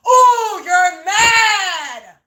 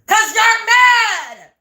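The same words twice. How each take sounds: First: Mocking taunt. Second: Slow, drawn-out shout of mad, higher and louder; taunting shout. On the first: Mocking the upset neighbors, gloating sing-song taunt. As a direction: gloat over them, mock-crying. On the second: Taunting the angry neighbors, slow mocking shout. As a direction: rub it in with a slow yell. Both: Real, not acted.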